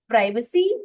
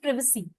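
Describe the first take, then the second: First: The first syllable sounds like 'prai'. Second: The first syllable sounds like 'prih'. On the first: This is the British form. "Privacy is basically uh, British" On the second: This is the American form. "US वाली language है प्रिवेसी"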